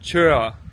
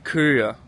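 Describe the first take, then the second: First: It is said in the Bornholmsk dialect. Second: It is said in standard Danish.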